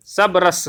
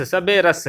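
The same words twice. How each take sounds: First: "सब रस" with no vowel after the b; pronounced "सब रस". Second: "सबे रस" with an "e" after "सब"; pronounced "सबे रस". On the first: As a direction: say "सब रस" as two syllables, sab-ras. ("सब रस" में ब के बाद कोई स्वर नहीं) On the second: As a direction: say "सबे रस" in three syllables, sa-be-ras. ("सबे रस" में ब के बाद 'ए' की आवाज़) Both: Shown as a demonstration. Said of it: "सबे रस या सब रस".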